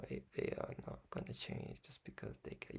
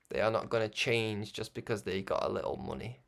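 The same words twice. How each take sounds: First: Whispered aside; a playful whispered repeat. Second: Said in the usual way. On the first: Acted. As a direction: breathe the line like a secret. Same line repeated whispered.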